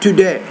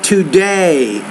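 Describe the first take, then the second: First: The vowel in the second syllable is short. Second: The vowel in the second syllable is long. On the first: The speaker calls it wrong. "not today" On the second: The speaker calls it right. "you need to make that vowel longer"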